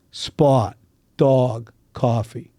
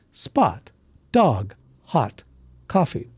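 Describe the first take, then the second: First: "coffee" said kawfee with a rounded aw; rounded aw in "spot", "dog", "coffee"; Pittsburgh aw vowel. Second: Spot, dog, hot, coffee with a bright open ah vowel; standard vowels. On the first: Dialect coach demonstrating the Pittsburgh aw sound. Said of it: "where you hear some strong Pittsburgh dialects, uh, you'll hear this". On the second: Dialect coach giving the general pronunciation, bright ah vowels. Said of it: "the way most people would pronounce the following words is this". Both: Shown as a demonstration.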